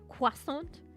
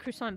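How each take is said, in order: First: It begins with a 'kw' sound. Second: It begins with a 'kr' sound. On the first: This is the more realistic way. The speaker calls it right. "almost like it's a Q" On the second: This is the common way people say it. The speaker calls it wrong. "a lot of people say croissant"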